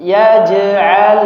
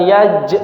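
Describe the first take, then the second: First: "yaj'al" flowing smoothly through the j into the 'ain; "yaj'al" with the jim carried straight into the 'ain. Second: "yaj" clipped short, stopped dead on the j; "yaj" halted at the jim; cut-off jim. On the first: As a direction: let "yaj'al" run on, unbroken. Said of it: "Mengalir. Tidak terputus". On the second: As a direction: break "yaj" off abruptly, the wrong way. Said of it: "jangan ... bukan yaj". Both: Shown as a demonstration.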